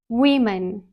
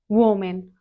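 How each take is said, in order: First: The first syllable sounds like "we". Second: The first syllable does not sound like "we". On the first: The speaker calls it right. "It is women" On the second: The speaker calls it wrong. "not woman"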